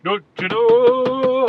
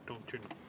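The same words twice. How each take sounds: First: Put-on "Don't you know?" drawn out slow, loud and high in a Canadian accent; hammed-up Canadian accent. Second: Put-on soft Canadian "Don't you know?", Canadian accent; mock Canadian accent. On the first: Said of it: "What accent is that?". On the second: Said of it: "I don't know what accent that is".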